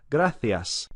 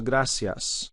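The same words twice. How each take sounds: First: Gracias said grathias, th for the c; Castilian Spanish gracias with th; Spain accent. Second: Gracias said grasias with an s; Latin American accent. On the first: Teacher shows the Spain th sound. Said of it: "Very typical Spanish accent would be that th". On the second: Teacher contrasts Latin American s with Spain th. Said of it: "as opposed to". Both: Shown as a demonstration.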